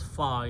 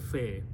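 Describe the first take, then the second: First: The letter name ends in an open 'ah' vowel. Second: The letter name ends in an 'eh' vowel. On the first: This is the Arabic way of naming the letter. "In Arabic, it is pronounced as fa" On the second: This is the Urdu way of naming the letter. "In Urdu, we say fe"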